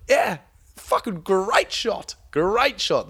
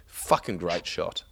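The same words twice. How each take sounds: First: Slow, much higher, loud crowing; gloating excitement. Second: Said in the usual way. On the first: Retold or imitated. Mate boasting about his buff bream shot, slow crowing. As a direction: crow about the great shot.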